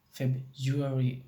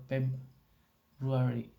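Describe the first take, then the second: First: "February," said as Feb-ju-ary, slowly; R changed to G. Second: Said in the usual way. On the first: Shown as a demonstration. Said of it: "It may change to G". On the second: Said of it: "change to".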